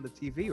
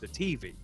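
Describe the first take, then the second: First: It is said in the speaker's usual accent. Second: It is said in a Southern US accent.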